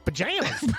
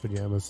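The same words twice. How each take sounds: First: The word is said with strong emphasis. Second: The word is said plainly, without emphasis. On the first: The speaker calls it right. "You have to put the emphasis on it" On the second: The speaker calls it wrong. "can't just be like pajamas"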